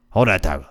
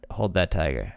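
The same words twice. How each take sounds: First: Low, put-on Cajun coach; Ed Orgeron. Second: Said in the usual way. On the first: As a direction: do the coach's catchphrase in thick Cajun. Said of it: "say it like Ed Orgeron". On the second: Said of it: "If you ever see Ed Orgeron tweet out".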